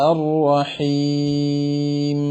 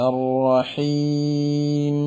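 Both takes have the same delivery.

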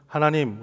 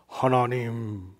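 First: It is said plainly, in an ordinary voice. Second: It is said in a solemn, pious voice. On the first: An ordinary person is speaking. "그냥 우리처럼 하나님 이렇게 안 부르고" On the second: The speaker is showing off religious devotion. "억양도 아주 거룩하게 발음을 합니다"

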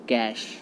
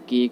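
First: The word ends with an 'sh' sound. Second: The word ends with a 'k' sound. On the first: The speaker calls it right. "इसका right pronunciation जो होता है वो होता है कैश" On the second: The speaker calls it wrong. "इसका कोई केक बोलता है"

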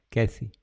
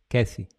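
No difference in how they are said.

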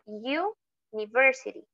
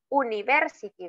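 First: The word begins with a y sound before oo. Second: The word begins with a plain oo vowel sound. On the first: The speaker calls it right. "Decimos university. Entonces ese sonidito, no es esa U" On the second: The speaker calls it wrong. "No decimos university"

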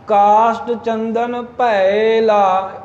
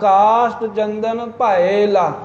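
First: The last word is run together as one unit. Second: The last word is split into two clear parts. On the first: The speaker calls it wrong. "ਇਹ ਭੈਲਾ ਉਚਾਰਨ ਇਕੱਠਾ ਕਰਕੇ ਈੜੀ ਨਾ ਵਿੱਚੋਂ ਸਾਧ ਸੰਗਤ ਖਾਧੀ ਜਾਵੇ" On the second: The speaker calls it right. "ਈੜੀ ਦਾ ਉਚਾਰਨ ਹੋਵੇ ਭੈ ਲਾ"

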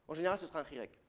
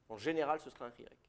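Both takes have the same delivery.

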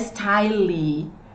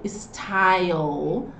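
First: The word ends with an added vowel sound. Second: The word ends on the consonant sound. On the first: The speaker calls it wrong. "de novo, não é style" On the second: The speaker calls it right. "Não style, style"

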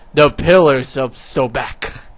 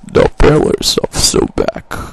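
First: It is said fairly plainly, with little emphasis. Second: It is said with strong, dramatic emphasis.

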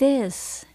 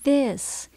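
No difference in how they are said.

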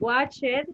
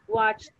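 First: The ending is said as an extra syllable. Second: The ending is just a short t sound. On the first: The speaker calls it wrong. "you don't say watch it" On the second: The speaker calls it right. "but you say watched"

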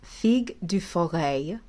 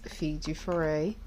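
First: The name is pronounced carefully and precisely. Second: The name is pronounced casually and loosely. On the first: The speaker calls it right. "make an effort to have good pronunciation" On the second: The speaker calls it wrong. "Excuse me"

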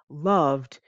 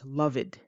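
First: The ending is a plain d sound. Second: The ending is an extra id syllable. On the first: The speaker calls it right. "instead of saying loved" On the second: The speaker calls it wrong. "what I often hear is loved, but that's not correct"

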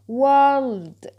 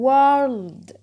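No difference in how they are said.

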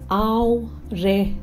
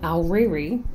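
First: The name ends in an 'eh' sound. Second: The name ends in an 'ee' sound. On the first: The speaker calls it right. "Try saying Aorere" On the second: The speaker calls it wrong. "It's not pronounced Aoreri"

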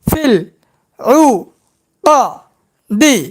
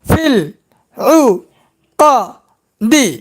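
No difference in how they are said.

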